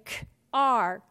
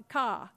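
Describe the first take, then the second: First: "k-R" as two separate sounds, k, then a loud ar; sounded out for spelling. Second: "ka" for car with the Rhode Island dropped r; Rhode Island accent. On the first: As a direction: break car into "k-R", r fully sounded. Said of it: "they would spell it out". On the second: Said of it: "then they would all say". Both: Shown as a demonstration.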